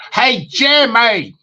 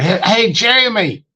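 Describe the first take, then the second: First: Slow, high Southern drawl on Jamie; Southern twang impression. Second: Imitating a caller's Southern twang, higher; a Southern drawl on the name, mock friendly. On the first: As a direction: stretch it out like a country caller. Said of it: "I like to do impersonations". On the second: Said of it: "he had this Southern twang or something".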